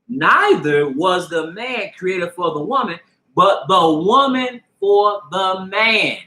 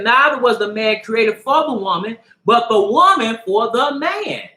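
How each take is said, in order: First: It is read very slowly. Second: It is read at normal speed.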